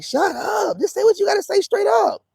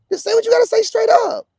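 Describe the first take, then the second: First: Much higher, fed up; a high, fed-up outburst; exasperated retort. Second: Higher still and louder; a high, loud fed-up demand; louder exasperated repeat. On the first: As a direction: snap back in frustration. Exasperated retort to passive aggression. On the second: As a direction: hammer the demand home. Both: Retold or imitated.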